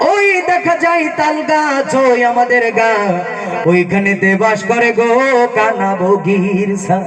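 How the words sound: It is recited in a preacher's sermon style. "যারা বক্তা বক্তাদের কাছে আমরা এই কবিতাটি পাঠিয়ে দিলাম, তারা কিভাবে আবৃত্তি করবে"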